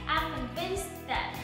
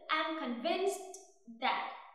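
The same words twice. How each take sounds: First: The final t of convinced is held, unreleased. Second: The final t of convinced is fully released. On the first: The speaker calls it right. "nó vẫn là âm T stop" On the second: The speaker calls it wrong. "cố gắng phát âm cái từ convinced thật rõ ràng bằng cách có đủ luôn âm T ở cuối cùng thì rõ ràng cái câu này nó sẽ bị đứt"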